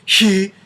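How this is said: The vowel starts with a breathy rush of air. The speaker calls it wrong. "They're not blowing apart like"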